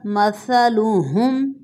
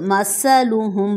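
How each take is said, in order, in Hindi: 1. यह व्यंजन नरम है, इसमें सीटी नहीं है। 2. यह व्यंजन तेज़, सीटी वाला 's' है।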